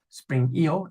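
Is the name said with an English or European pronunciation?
European. The letters are said the continental European way.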